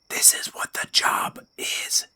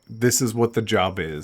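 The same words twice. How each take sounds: First: It is whispered. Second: It is said in a normal voice.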